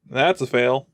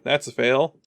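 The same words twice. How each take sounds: The two takes are said the same way.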